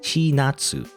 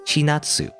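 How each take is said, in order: First: The name is said with a Japanese pronunciation. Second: The same.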